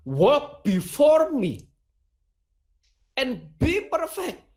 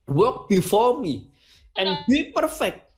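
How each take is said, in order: First: Slow, lifted English quote, rising on be; preacher voicing God in English, slow and lifted; solemn divine command. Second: Slow, raised English quote, climbing on be; voicing El Shaddai's command in English, slow and raised; solemn divine command again. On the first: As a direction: pronounce it like God's command, slowly. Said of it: "Kalau dalam versi bahasa Inggris". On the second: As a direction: speak it as God's decree, deliberately. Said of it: "Itu kata Tuhan".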